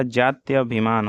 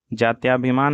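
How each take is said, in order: First: Said in the usual way. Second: जात्याभिमान with long aa after ty; wrong pronunciation. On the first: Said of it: "होता है". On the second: Shown as a demonstration. Teacher shows students the error, जात्याभिमान with long tyaa. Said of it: "नहीं होता".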